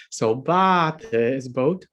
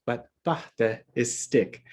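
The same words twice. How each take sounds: First: Bata said with a long, stressed first A, slowly. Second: Bata said with a short first A, no stress mark; short unstressed A. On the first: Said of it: "say the stress mark off and say bata". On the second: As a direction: keep the first vowel of bata short and light. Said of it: "the stress mark off and say bata". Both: Shown as a demonstration.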